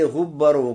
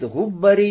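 First: The word ends with a u vowel. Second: The word ends with an i vowel. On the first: The remnants remain as a separate group. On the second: The remnants are counted among those who worshipped.

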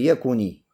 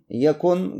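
First: The word ends with a short 'i' vowel. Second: The word ends on the consonant 'n'. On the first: The vowel is added to link with the next word. "кесра" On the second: The verb stands in the jussive mood. "глагол маджзум, здесь сукун"

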